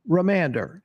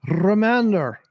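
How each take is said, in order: First: Said in the usual way. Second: Remander with a trilled R, "rrruh-MANDER"; rolled R. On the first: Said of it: "no rolling of the R". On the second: Shown as a demonstration. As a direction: roll the R hard at the start of Remander. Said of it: "Should I roll my R's when I say it".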